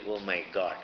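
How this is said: It is said simply, as a casual exclamation.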